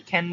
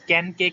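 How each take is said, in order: First: "খ্যান" as English can with a puffed k; airy burst opening "খ্যান"; aspirated K. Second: "ক্যান" with a plain k, no puff; dry k opening "ক্যান"; unaspirated K. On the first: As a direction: say "খ্যান" with a kh onset. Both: Shown as a demonstration. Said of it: "ক্যানকে খ্যান বলবা".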